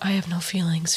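It sounds sad and self-pitying. The speaker wants sympathy. "I wouldn't say that as like a, I have no feelings, feel bad for me"

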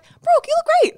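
It is said in a light, casual, polite tone. He is just being courteous. "Or they could be like"

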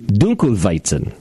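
It is pronounced with a German pronunciation. "In German, it would be"

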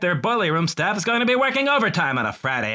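It is said in a put-on comedic impression voice. "I just pictured him tweeting that as John Mulaney"

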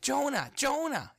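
The voice is bright, quick and excited. God has great news to share. "what if it's like he's excited because he has something great to tell you?"

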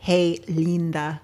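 It is said with an attempted Spanish accent. It is heard spoken aloud. "in Spanish, I'm sure if he said it, it would have been like"

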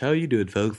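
It is said in a put-on, exaggerated voice. "I'm gonna stop doing that voice"

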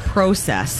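It is said in a Canadian accent. "I love how they say process"

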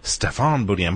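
The name is said with a French sound. The speaker calls it wrong. "at first it has a very French sound, so I thought"

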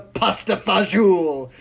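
It is pronounced with a showy Italian accent. The speaker is trying to impress others. "tries to impress everybody with his pronunciation"

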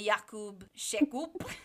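The name is said with a Polish pronunciation.

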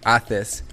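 The middle consonant is a lisped 'th' sound. "They'll say Athes"

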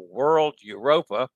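The name is said with an American pronunciation. "the slang American pronunciation"

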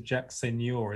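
The surname has a Spanish-style pronunciation. The name is made to sound like a Spanish golfer's. The speaker calls it wrong. "as if he was some Seve Ballesteros"

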